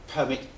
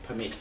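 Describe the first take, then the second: First: "Permit" stressed on the first syllable, PER-mit; "Permit" as a noun, stress on PER. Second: "permit" stressed on the second syllable, per-MIT; "permit" as a verb, stress on MIT. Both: Shown as a demonstration. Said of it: "Different meaning".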